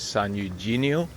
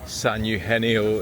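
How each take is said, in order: First: The g is said as a hard G. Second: The g is said as an H sound. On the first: The speaker calls it wrong. "Some people pronounce it as" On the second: The speaker calls it right. "it's more of a H sound"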